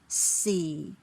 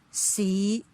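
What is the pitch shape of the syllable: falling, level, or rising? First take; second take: falling; rising. First: The pitch falls low. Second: The pitch rises from low. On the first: "Let me count from tone four to six" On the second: "tone five rising"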